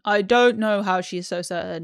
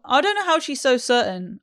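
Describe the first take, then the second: First: Said in the usual way. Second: Raised, emphatic; higher take. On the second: Shown as a demonstration. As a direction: say it up high with emphasis.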